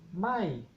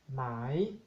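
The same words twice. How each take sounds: First: It is said on a falling tone. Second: It is said on a rising tone. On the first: It means no. "Tono decreciente" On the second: It means silk. "Tono creciente"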